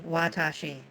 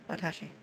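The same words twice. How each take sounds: First: "watashi" with a stressed middle syllable, wa-TA-shi; Western pronunciation. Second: "Watashi" as wa-ta-shi, even beats, no stressed syllable; Japanese pronunciation. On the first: Mimicking how Westerners say it to chat, stressed TA. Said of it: "If you're pronouncing that in most Western languages". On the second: Showing chat the Japanese way, even and unstressed. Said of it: "that's how you say that in Japanese". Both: Shown as a demonstration.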